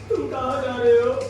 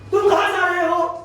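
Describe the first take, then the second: First: The line is spoken in a crying voice. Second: The line is spoken in an angry voice. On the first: "रो के बोलना है तो कैसे बोलेंगे" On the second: "इसे गुस्से में बोलना है तो कैसे बोलेंगे"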